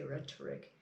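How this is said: It is said with a British accent. "I think British people would say rhetoric"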